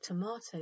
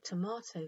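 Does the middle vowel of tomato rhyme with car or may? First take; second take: car; car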